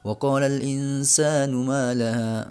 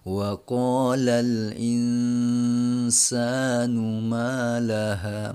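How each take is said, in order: First: It is recited fast with a short nasal. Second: It is recited slowly with an evenly held nasal. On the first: "bacanya lancar" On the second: "baca Qur'annya selo atau standar gitu kan"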